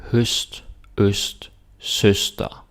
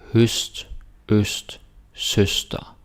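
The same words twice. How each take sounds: First: Teacher modelling "Høst, øst, søster" clearly; Danish pronunciation. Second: Teacher repeating "Høst, øst, søster" for the class; Danish pronunciation, second take. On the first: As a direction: Danish word demo. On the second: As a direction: Danish word demo repeated. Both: Shown as a demonstration. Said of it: "here we got Ø S T et".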